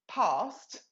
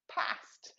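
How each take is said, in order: First: It is said in a southern English accent. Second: It is said in a northern English accent. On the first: "you just go down south and you go past because we're posh" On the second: "you go up north, it's grass and past"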